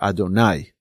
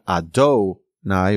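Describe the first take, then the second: First: The stress falls on the last syllable. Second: The stress falls before the last syllable. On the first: The speaker calls it right. "but rather Adonai, okay, on the latter part of the word" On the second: The speaker calls it wrong. "not Adonai"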